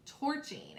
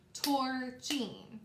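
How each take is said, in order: First: Said in the usual way. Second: "torching" split into two drawn-out syllables; syllables clapped out. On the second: Shown as a demonstration. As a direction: say "torching" slowly, tor then ching, as if clapping each part. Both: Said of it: "Let's clap it out".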